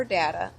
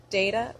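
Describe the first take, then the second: First: "data" said "DAT-uh". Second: "data" said "DAY-tuh". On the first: Giving the second option, "data" as "DAT-uh". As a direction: say "data" with the vowel of cat. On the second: Reading a word list, "data" as "DAY-tuh". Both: Shown as a demonstration.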